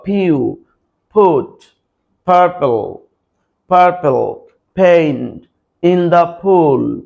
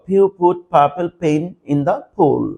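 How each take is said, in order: First: The sentence is spoken slowly. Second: The sentence is spoken quickly. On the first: "প্রথমে slow বলবা" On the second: "তারপর দ্রুত বলবা"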